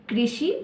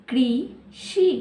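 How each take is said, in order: First: Said in the usual way. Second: कृषि drawn out slowly, syllable by syllable; slowed to syllables. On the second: Shown as a demonstration. Teacher showing children how to read, slowly syllable by syllable. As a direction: stretch कृषि out so each part is heard. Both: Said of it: "कैसे पढ़ेंगे इसे?".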